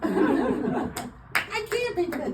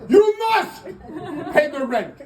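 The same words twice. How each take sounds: First: High, slow, pleading falsetto; distressed damsel. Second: Sneering panto villain. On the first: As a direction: wail it like a helpless heroine. Melodrama damsel bit. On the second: Melodrama villain bit. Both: Pretend.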